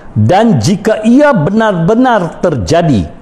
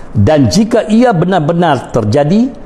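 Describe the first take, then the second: Both takes have the same delivery.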